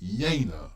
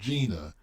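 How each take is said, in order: First: It does not sound like the name Gina. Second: It sounds like the name Gina. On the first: The speaker calls it right. "it's Jena" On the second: The speaker calls it wrong. "it's not Gina"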